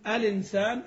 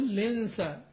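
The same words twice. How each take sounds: First: It starts with a vowel before the L. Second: It starts directly with the L sound. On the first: "تبدأ بهمز الوصل" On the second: "تشيل الإيه الألف الوصل"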